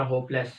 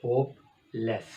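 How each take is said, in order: First: Said in the usual way. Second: hopeless split into two beats; hopeless with a clear break in the middle; syllables broken apart. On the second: Shown as a demonstration. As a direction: say hopeless as hope then less. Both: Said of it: "टू syllable".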